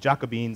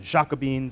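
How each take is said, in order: First: The name is said with English sounds. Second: The name is said with French sounds. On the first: "it is actually Jacobins" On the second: "if you were pronouncing it in the French way"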